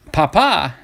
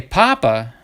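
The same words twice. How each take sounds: First: Papa with the second A hit hard, pa-PA; stress on second syllable. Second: Papa with the first A hit hard, PA-pa; stress on first syllable. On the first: Card collector explaining Spanish for dad, papa stressed on the end. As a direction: say papa as pa-PA, leaning on the last A. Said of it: "if you accent the second A". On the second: Collector explaining Spanish for potato, papa stressed on the start. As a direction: say papa as PA-pa, dropping off after the first A. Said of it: "with the accent on the first A". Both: Shown as a demonstration.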